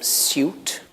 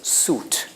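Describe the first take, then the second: First: A y sound follows the s. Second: No y sound follows the s. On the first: It is the older way of saying it. "in the past, that would have been" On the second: It is the usual way of saying it today. "but today it's suit"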